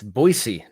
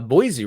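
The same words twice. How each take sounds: First: The middle consonant is an s sound. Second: The middle consonant is a z sound. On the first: The speaker calls it right. "It's an S E E, not a Z E at the end there" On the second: The speaker calls it wrong. "apparently we say uh, Boise wrong"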